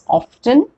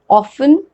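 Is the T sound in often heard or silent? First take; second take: heard; silent. First: The T sound is pronounced. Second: The T sound is silent. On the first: "can also be pronounced as often" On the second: "we don't pronounce T"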